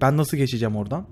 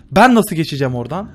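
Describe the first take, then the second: First: Said in the usual way. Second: Louder frustrated. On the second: Real, not acted.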